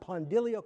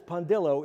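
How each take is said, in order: First: The name ends with an 'ilio' sound. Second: The name ends with an 'illo' sound. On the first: The speaker calls it wrong. "It's not Pondilio" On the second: The speaker calls it right. "so it's Pondillo"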